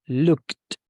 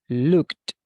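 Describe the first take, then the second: No difference in how they are said.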